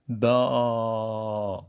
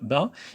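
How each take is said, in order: First: The vowel is long. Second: The vowel is short. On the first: "It is a long one" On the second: "we have Fatha"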